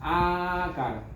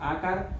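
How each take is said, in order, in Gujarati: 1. સ્વરને ત્રણ માત્રા જેટલો ખેંચવામાં આવે છે. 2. સ્વરને બે માત્રા જેટલો ખેંચવામાં આવે છે. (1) "પ્લુત" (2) "દીર્ઘ"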